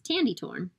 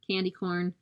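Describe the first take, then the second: First: Each word begins with a t sound. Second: Each word begins with a k sound.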